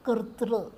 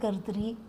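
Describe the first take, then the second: First: The word ends with a short vocalic r sound. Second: The word ends with a full 'ree' syllable. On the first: The speaker calls it right. "दंत और मूर्धा स्पर्श होना चाहिए, और दूसरा नहीं" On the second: The speaker calls it wrong. "लोग अपनी सुविधा के लिए कर्तरी कर्तृ ऐसा बोल रहे हैं"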